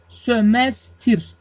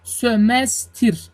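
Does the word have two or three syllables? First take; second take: three; three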